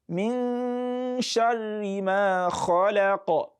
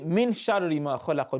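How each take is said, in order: First: The n is hidden and held as a nasal sound. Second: The n is rushed without a held nasal sound. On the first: The speaker calls it right. "You take your time a bit on the non so that the gunna sound will come" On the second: The speaker calls it wrong. "You don't say ... don't be in a haste"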